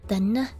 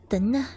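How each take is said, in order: Both takes have the same delivery.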